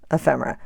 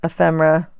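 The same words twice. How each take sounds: First: Softer, lower ephemera with a falling end; quiet. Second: Said in the usual way. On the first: Shown as a demonstration. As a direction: say ephemera softly, trailing down. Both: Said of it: "I mean, ephemera".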